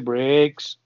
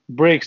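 First: Said in a northern accent with a drawn-out vowel. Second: Said in a plain accent with a normal vowel. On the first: "everything was sort of extended" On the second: "if you say breaks"

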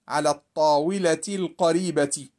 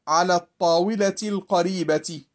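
No difference in how they are said.

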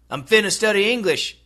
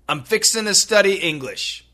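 First: The words 'fixing to' are reduced to 'finna'. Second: The words 'fixing to' are said in full. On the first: "if you have a really close American friend, why don't you try" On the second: "if you have an American friend, you can try"

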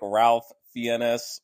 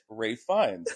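First: The name is read just as it is spelled. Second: The name is read differently from its spelling. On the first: The speaker calls it wrong. "While it looks exactly like Ralph Fiennes or Fiennes" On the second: The speaker calls it right. "it is Ralph Fiennes, as we learned"

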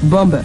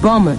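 First: The B is pronounced in the middle. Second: The B is silent in the middle. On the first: The speaker calls it wrong. "not bomber" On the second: The speaker calls it right. "to become bomber"

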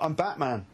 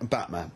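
First: It is said in an ordinary speaking voice. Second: It is said in a rough, put-on throaty voice. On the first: It has no impact. "So it didn't have the impact" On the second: It is meant to be scary. "I need to do something with the voice"

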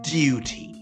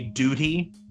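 First: It is said in a British accent. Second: It is said in an American accent.

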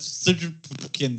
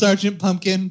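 First: The name is sounded out without its vowels. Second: The name is said with its normal vowels. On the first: "sounds funnier" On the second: "I know it's Sergeant Pumpkin"

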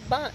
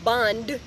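First: The word is said loosely with sounds dropped. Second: Every sound of the word is clearly articulated. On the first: "Let's be lazy" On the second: "I have to enunciate it more"

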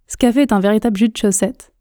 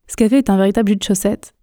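Both takes have the same delivery.

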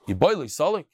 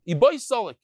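First: It is said with a rising, questioning tune. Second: It is said with a falling, statement tune. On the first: Asks whether he is able to go up. "But if it's a question" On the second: He is able to go up. "Ibai Solik means it's a statement"

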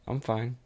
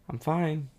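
First: It is said flatly and mildly, giving in. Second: It is said with a resentful, sarcastic edge. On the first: The speaker avoids sharing real feelings. "passive statement" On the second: The speaker hints at hidden anger. "Go to passive aggressive"

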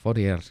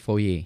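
First: The name is said in a non-French way. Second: The name is said in a French way. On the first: The speaker calls it wrong. "ternyata bayaannya bukan Fourier" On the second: The speaker calls it right. "tapi Fourier. Mungkin ini orang Perancis ya"

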